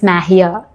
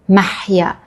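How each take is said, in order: First: The h is a soft, plain breathy sound. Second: The h is a harsh sound from the throat. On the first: This is how the name sounds in Persian. "in Persian, but it's mahya" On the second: This is how the name sounds in Arabic. "My name in Arabic is mahya"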